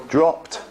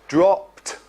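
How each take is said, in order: Both takes have the same delivery.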